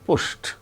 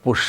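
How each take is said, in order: First: The ending is a t sound. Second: The ending is not a t sound. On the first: The speaker calls it right. "the past tense marker in such cases is pronounced as a t" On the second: The speaker calls it wrong. "It is not pushed"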